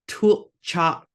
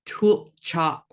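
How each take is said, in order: No difference in how they are said.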